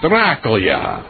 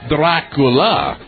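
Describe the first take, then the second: First: The word ends in a 'lya' sound. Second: The word ends in a plain 'la' sound. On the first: The speaker calls it right. "It's like a YA on the end" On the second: The speaker calls it wrong. "They don't say Dracula"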